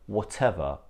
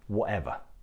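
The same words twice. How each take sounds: First: The t is pronounced as a full t. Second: The t is replaced by a glottal stop.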